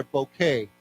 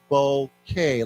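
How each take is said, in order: First: Said in the usual way. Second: Bouquet broken slowly into "boh" and "kay"; syllable by syllable. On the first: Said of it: "So let's say together". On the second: Shown as a demonstration. Teacher showing students how to say bouquet, slowly split. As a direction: say bouquet as two separate beats, boh, kay. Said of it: "we say this as bouquet".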